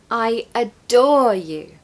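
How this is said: The stress falls on the word adore. "Here we have the stress on adore"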